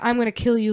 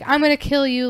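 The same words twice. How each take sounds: First: It sounds like a real, menacing threat. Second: It sounds light and playful, not threatening.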